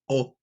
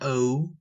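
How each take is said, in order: First: The vowel is kept short and clipped. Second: The vowel is drawn out long, English style. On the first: The speaker calls it right. "A lot of these letters are short, not like in English" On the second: The speaker calls it wrong. "It's not O"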